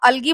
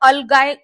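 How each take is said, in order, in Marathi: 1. शब्द 'gee' आवाजाने संपतो. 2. शब्द 'guy' आवाजाने संपतो. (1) "अल्गी म्हणू शकता याला" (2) "किंवा अलगाय सुद्धा म्हणतात. वेगवेगळा उच्चार आहे"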